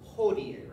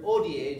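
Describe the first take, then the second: First: The word begins with an audible h. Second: The word begins with a vowel, no h. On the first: The speaker calls it wrong. "I did not pronounce it hodie" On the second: The speaker calls it right. "H's are silent"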